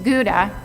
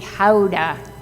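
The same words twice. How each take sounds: First: Gouda is said the usual English way. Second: Gouda is said the Dutch way. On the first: The speaker calls it wrong. "we pronounce this cheese wrong" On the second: The speaker calls it right. "That's the proper pronunciation. If you're in Holland"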